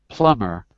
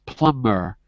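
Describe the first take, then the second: Both takes have the same delivery.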